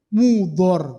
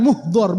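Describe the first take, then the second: First: MUDHOR said with no h sound after the u; Mudhor without H. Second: MUHDHOR with an audible h closing the first syllable; wrong H in Muhdhor. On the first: Preacher teaching the congregation the name, Mudhor with no H. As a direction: say "Mudhor" with the first syllable open, MU-dhor. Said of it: "Ndak ada haknya". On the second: Preacher showing the congregation the mistake, Muhdhor with added H. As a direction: say "Muhdhor" as MUH-dhor, h before the dh. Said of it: "bukan ya. Ndak ada haknya". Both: Shown as a demonstration.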